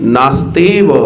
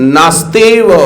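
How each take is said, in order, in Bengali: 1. শব্দটি 'va' ধ্বনি দিয়ে শেষ হয়। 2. শব্দটি 'va' ধ্বনি দিয়ে শেষ হয়।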